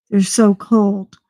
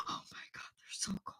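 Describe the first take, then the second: First: Said in the usual way. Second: Very soft whispered shock; breathless whisper. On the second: Acted. Vlogger reacting to a refrigerated facial mask, breathless whisper. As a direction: whisper it as if stunned by cold.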